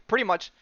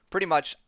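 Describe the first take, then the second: No difference in how they are said.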